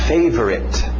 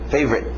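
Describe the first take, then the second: First: The middle vowel is pronounced in full. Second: The middle vowel is dropped entirely.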